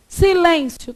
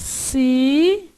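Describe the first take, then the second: First: Said in the usual way. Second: "Silêncio" split into si, lên, cio; teacher dividing "Silêncio", cio kept as one piece; syllable by syllable. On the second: Shown as a demonstration. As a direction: say "Silêncio" slowly, pausing between drawn-out syllables. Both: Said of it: "como é que você faz".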